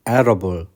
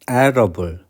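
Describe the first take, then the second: No difference in how they are said.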